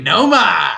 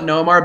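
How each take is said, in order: First: Noma with the final r dropped, open "ah" ending; Boston pronunciation. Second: Said in the usual way. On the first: Shown as a demonstration. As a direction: stretch the last vowel of Noma into "ah". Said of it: "about Nomar being Noma". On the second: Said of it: "why we joked around about Nomar being Noma".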